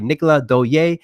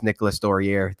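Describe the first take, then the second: First: The name is said with a non-English pronunciation. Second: The name is said with an English pronunciation. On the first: This is the name's original pronunciation. "that's actually how you pronounce it" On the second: This is how most people say the name. "the English pronouncing version of it"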